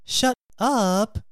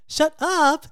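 First: Slow, uneasy disbelief; guilty dismay. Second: Delighted gossip shock, raised voice; excited disbelief. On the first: Friend who secretly slept with the boyfriend, guilty dismay. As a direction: let it sink in slowly and uneasily. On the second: Friend hearing who was seen on the metro, excited disbelief. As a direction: react thrilled to juicy gossip. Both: Acted.

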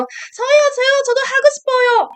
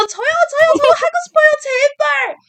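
First: High, fast, excited begging in Korean; eager pleading call. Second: Desperate pleading call. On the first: A fan at a fanmeet begging the idol to let her play, high fast pleading. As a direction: call out to be picked, rapid-fire. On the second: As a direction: plead harder to be picked. Fan begging idol to play. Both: Retold or imitated.

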